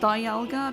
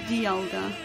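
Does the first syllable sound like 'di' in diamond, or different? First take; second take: like diamond; different. First: The first syllable sounds like 'di' in diamond. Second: The first syllable differs from 'di' in diamond. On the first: "I thought it was Dialga because of diamond" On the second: "But apparently it's Dialga"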